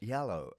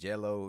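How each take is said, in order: First: The word begins with a Y sound. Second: The word begins with a J sound. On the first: Listeners understand the word. The speaker calls it right. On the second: Listeners cannot understand the word. The speaker calls it wrong.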